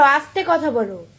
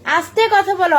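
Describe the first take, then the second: First: Said in the usual way. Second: Loud, high scold; loud telling-off. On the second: Real, not acted. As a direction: snap it out loud.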